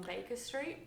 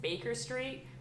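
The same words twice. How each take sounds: First: "Baker" said with an open "ah" ending, no R; non-rhotic Australian "Baker Street"; Australian pronunciation. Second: Put-on American accent with a hard R in "Baker"; higher, questioning American-accented attempt. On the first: Retold or imitated. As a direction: say "Baker" as "Bake-ah". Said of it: "Australians and Brits put an A on the end". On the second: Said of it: "put an American accent on".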